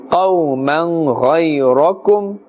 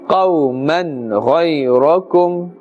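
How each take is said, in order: Both takes have the same delivery.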